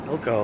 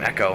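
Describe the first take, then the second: First: The L sound is pronounced. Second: The L sound is left out.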